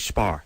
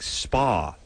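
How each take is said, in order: First: The word ends with an added R sound. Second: The word ends in a plain vowel sound. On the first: "she would say spar" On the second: "when she would say like spa"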